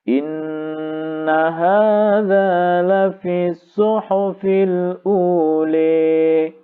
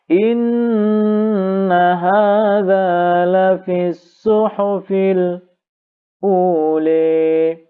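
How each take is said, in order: First: The glottal stop is said plainly without a break. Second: A brief break comes before the glottal stop. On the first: "Kemudian ditambah tahqiq" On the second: "kemudian bisakti"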